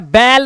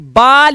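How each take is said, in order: First: The vowel is a flat ay-like sound. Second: The vowel is an open ah sound. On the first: "कभी भी बाल या बैल नहीं होता" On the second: "कभी भी बाल या बैल नहीं होता"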